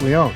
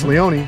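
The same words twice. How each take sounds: First: The final E is silent. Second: The final E is pronounced. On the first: The speaker calls it wrong. "A lot of people say" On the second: The speaker calls it right. "you got to pronounce that E"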